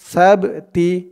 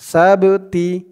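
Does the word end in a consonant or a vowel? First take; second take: vowel; vowel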